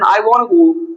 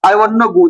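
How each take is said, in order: First: The word 'to' is left out entirely. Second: The word 'to' is reduced to 'na'. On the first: "वरना ये टू हटा के" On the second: "तो इसका हम I want ना"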